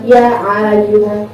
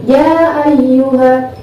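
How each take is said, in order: First: "ya ayyuha" with a throaty Ain starting "ayyuha"; mistaken Ain. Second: "ya ayyuha" with a clean glottal Hamzah on "ayyuha"; long "ya", then "ayyuha" starting on a light glottal stop; correct Hamzah. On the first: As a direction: slowly say "ya ayyuha" wrongly, squeezing Ain into "ayyuha". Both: Shown as a demonstration. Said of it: "jangan ya ayyuha".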